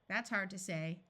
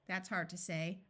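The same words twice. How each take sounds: No difference in how they are said.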